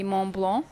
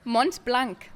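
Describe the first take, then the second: First: Mont Blanc with nasal vowels, final consonants silent; French pronunciation. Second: Mont Blanc with T and final K sounded; German pronunciation. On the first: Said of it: "pronouncing it French". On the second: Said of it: "how would you say it in German?". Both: Shown as a demonstration.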